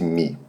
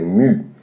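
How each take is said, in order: First: The letter name is said with an 'ee' vowel. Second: The letter name is said with an 'oo' vowel. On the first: This is how the letter is commonly named in Brazil. "no Brasil falamos frequentemente Mi" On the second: This is the original pronunciation of the letter. "na realidade, a pronúncia é mu"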